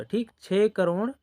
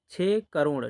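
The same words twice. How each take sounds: First: छः crore said higher and louder with a rising end; emphatic repeat. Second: Said in the usual way. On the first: Shown as a demonstration. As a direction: repeat छः crore with a lift to confirm it. (छः करोड़ पर ज़ोर और ऊँची उठती आवाज़) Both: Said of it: "इसको ऐसे पढ़ेंगे हम लोग".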